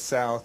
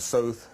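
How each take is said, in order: First: The vowel is a broad, open American 'ow'. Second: The vowel is raised, the Canadian way. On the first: The speaker is not from Canada. "He says south" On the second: The speaker would be from Canada. "so he's not from Canada"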